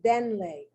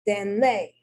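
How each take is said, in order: First: The stress falls on the next-to-last syllable. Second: The stress falls on a different syllable. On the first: The speaker calls it right. "Correct pronunciation is denle" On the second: The speaker calls it wrong.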